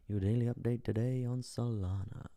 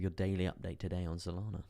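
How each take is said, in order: First: Put-on voice. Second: Said in the usual way. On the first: Streamer repeats his daily update to viewers, put-on voice. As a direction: say it as a playful put-on voice.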